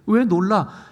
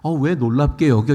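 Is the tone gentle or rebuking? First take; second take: rebuking; gentle. First: It is said in a scolding, rebuking tone. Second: It is asked as a gentle, curious question.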